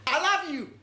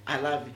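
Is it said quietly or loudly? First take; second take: loudly; quietly. First: It is said loudly, almost shouted. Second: It is said quietly and gently.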